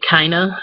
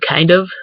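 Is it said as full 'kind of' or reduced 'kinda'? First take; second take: kinda; kind of. First: The words are reduced and run together. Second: The two words are said fully and separately. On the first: "we say kinda" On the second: "instead of kind of"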